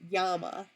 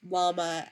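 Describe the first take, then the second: First: It begins with a Y sound. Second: It begins with an L sound.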